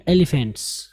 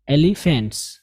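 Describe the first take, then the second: No difference in how they are said.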